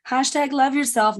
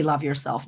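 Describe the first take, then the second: First: "hashtag love yourself" pitched much higher, scoffing; mocking hashtag. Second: Said in the usual way. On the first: Shown as a demonstration. Coach mocking the shallow self-love slogan, pitched up. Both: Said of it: "It's not what I mean".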